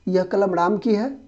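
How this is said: It is said in a surprised, astonished tone. The speaker is astonished that the pen is Ram's. "आश्चर्य से।"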